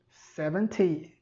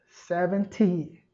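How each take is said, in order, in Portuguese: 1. É dita com sotaque britânico. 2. É dita com sotaque britânico.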